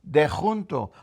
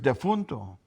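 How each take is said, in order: First: It is said in the local pronunciation. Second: It is said in the standard pronunciation. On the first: This is how the local community says it. "We say dejunto" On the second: This is the proper form of the word. "The proper word is defunto"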